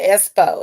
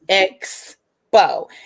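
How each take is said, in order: First: The middle is a plain s, without k. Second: The middle is a ks sound, with k. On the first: The speaker calls it wrong. "It's not the espo" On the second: The speaker calls it right. "it's expo"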